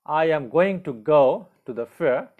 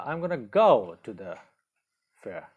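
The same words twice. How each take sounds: First: "am going to" in full, every word separate; long form. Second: "I'm gonna" run together as two short words; contracted form. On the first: Teacher reads the long form for learners, full emphatic "am going to". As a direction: say "I am going to" uncontracted, higher and louder. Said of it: "the long form is". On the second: Teacher models spoken English for learners, contracted "I'm gonna". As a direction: say "gonna" merged, pause before the last word. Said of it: "in contracted form in speaking we use". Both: Shown as a demonstration.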